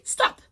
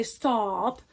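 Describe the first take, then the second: First: "stop" with a quick, short o; quick short vowel. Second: "stop" with a drawn-out o, like "staap"; wrong long vowel. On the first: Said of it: "It's a quick, quick O". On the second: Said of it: "We don't say stop". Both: Shown as a demonstration.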